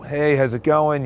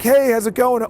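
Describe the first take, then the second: First: It is said with low, groggy energy. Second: It is said with high, social energy.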